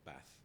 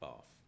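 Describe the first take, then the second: First: It is said in a northern English accent. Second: It is said in a southern English accent.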